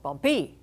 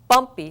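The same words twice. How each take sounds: First: The stress is on the second syllable. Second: The stress is on the first syllable. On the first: The speaker calls it wrong. "That doesn't sound right" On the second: The speaker calls it right. "Bumpy sounds right. There's my accent"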